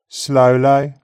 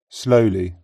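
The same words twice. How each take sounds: First: The final ee glides from the centre of the mouth. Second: The final ee is a steady pure vowel. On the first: "Red text, read in Brummie, followed by GB" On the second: "followed by GB"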